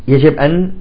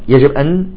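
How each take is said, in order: The two takes are said the same way.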